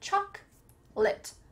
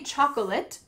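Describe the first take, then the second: First: The middle syllable is dropped. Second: The middle syllable is fully pronounced. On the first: The speaker calls it right. "cut out that middle part" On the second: The speaker calls it wrong. "people will look at you a little bit strange"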